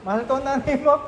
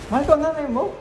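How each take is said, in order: First: The line is said in a happy tone. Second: The line is said in a surprised tone.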